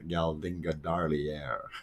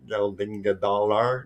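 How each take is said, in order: First: The ending has an 'ear'-like sound. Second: The ending has no 'ear'-like sound. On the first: The speaker calls it right. "a E A R kind of sound, Dalier at the end" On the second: The speaker calls it wrong.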